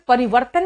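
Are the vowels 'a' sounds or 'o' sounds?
a. The vowels are said as 'a' sounds. This is the standard form. "परिवर्तन नहीं कहा था"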